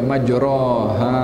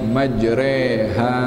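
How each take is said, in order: First: The vowel after the r sounds like o. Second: The vowel after the r sounds like e. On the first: The speaker calls it wrong. "bukan dibaca majroha" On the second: The speaker calls it right. "bukan dibaca majroha"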